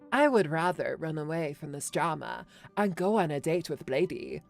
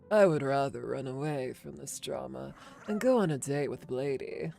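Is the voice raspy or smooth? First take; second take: smooth; raspy. First: It is a smooth voice without rasp. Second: It is a raspy Kafka voice.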